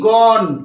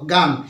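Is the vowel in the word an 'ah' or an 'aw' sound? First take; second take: aw; ah. First: The vowel is a rounded 'aw' sound. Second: The vowel is an open 'ah' sound. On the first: The speaker calls it right. "উচ্চারণটা জি O N E, গন" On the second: The speaker calls it wrong. "এর উচ্চারণটা গান নয়"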